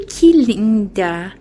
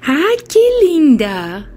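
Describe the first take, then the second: First: Said in the usual way. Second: Lilting pet talk on Ai, que linda; high cooing pet voice. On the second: Real, not acted. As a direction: swoop up on Ai, coo que linda.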